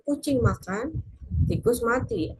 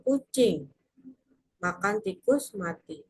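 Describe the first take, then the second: First: There is a pause after makan. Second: There is a pause after kucing.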